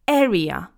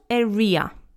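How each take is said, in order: First: The stress falls on the first syllable. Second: The stress falls on a later syllable. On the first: The speaker calls it right. "the stress is on the first syllable" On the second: The speaker calls it wrong. "It's not area"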